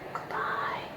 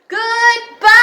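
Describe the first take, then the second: First: It is said softly. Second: It is said loudly.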